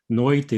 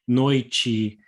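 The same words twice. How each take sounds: First: The t is pronounced as a plain t. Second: The t is softened into a ch sound. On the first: This is a regional pronunciation, mainly from the south. "existem pessoas ... que falam noite, principalmente no sul" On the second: This is the standard pronunciation most often heard. "Esse é o standard, ... palatalization"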